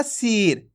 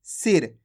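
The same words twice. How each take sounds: First: सिर stretched into a long "seeer"; drawn-out vowel. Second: सिर said quickly with a short "i"; short, quick vowel. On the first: Teacher shows students how not to read, सिर drawn out. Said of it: "खींच के नहीं पढ़ना". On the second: Teacher models correct reading for students, सिर with a short vowel. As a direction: keep सिर brief and low, vowel not stretched. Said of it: "जल्दी से पढ़ देंगे". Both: Shown as a demonstration.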